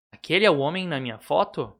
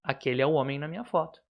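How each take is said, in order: First: "Aquele é o homem na minha foto?" with a questioning tune; question intonation. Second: "Aquele é o homem na minha foto." said fast as a flat statement; statement intonation. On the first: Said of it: "trocar a pontuação. E a entonação". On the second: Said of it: "É só tirar aqui e trocar a pontuação". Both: Shown as a demonstration. Teacher contrasting question and statement tune.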